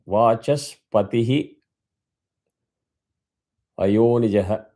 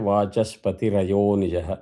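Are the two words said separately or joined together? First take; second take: separately; joined. First: The two words are said separately. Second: The two words run together in one stretch.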